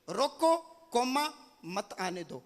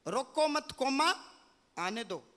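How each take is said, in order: First: There is a break after रोको. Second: There is a break after मत.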